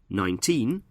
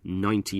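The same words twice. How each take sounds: First: The stress is on the second syllable. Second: The stress is on the first syllable. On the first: It is the number on its own. "In nineteen, we stress the second syllable, teen" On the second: It is part of a year. "we stress the first syllable of nineteen"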